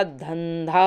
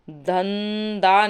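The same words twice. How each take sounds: First: धंधा with aspirated second dh; correct form. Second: धंधा with plain second d, "dhandaa"; slow धंधा without breath on the last d; wrong form. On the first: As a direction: slowly breathe out both dh sounds of धंधा. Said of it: "धंधा होता है". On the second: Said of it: "धंधा नहीं होता". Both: Shown as a demonstration.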